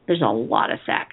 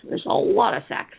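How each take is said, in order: First: Said in the usual way. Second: Whispered aside, higher; hushed repeat for emphasis; stage whisper. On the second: Acted. Repeats the line, second time whispered.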